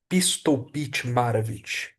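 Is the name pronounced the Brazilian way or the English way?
Brazilian. The name is said with Brazilian Portuguese sounds.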